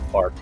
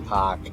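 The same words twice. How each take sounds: First: The R sound is pronounced clearly. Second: The R sound is dropped, Boston style. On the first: "I said the R" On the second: "I didn't say park"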